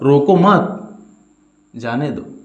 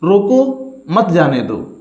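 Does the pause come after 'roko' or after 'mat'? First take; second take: after mat; after roko. First: There is a pause right after the second word. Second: There is a pause right after the first word. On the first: Do not stop the person; let them go. "यहां पर रोकना नहीं है, यहां जाने देना है" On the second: Stop the person; do not let them go. "अर्थात यहां पर आपको रोकना है"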